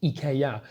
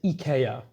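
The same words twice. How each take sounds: First: It is said with a Swedish pronunciation. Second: It is said with a Swedish pronunciation.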